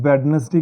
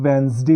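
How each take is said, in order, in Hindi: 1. बीच वाला d साफ़ बोला जाता है। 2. बीच वाला d नहीं बोला जाता। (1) "इसको हम नॉर्मली वेडनेसडे कहते हैं" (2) "ये वेंसडे होता है। एन को बोला जाता है और डी साइलेंट हो जाता है।"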